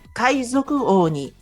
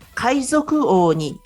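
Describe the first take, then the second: No difference in how they are said.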